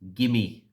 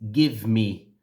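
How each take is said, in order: First: The two words are blended into one. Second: The two words are said separately.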